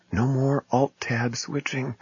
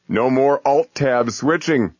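First: Soft, slow, awestruck hush; awed hush. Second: High, slow momentous proclamation; grand announcement. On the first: Pretend. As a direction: breathe it in wonder. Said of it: "Think of it". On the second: Retold or imitated. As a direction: announce it like a miracle cure. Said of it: "in the tone of voice you might use to announce a cure for cancer".

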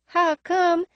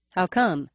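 First: High nasal echo, faint lisp. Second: Said in the usual way. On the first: A narrator's reading. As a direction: throw it back, higher and nasal. Emerald echoes the question.

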